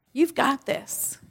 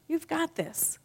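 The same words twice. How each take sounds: First: Higher, slow reassurance; inner cheerleader. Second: Higher and softer reassurance; soft inner cheerleader. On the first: Speaker voicing the higher self to the audience, slow and high. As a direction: draw it out, lifting. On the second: Speaker voicing the higher self again, softer and high. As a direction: say it gently, up high. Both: Pretend. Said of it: "The inner cheerleader says different things".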